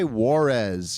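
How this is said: The name is said with an American accent. The name is made to sound plainly American. The speaker calls it right. "Just say Juarez"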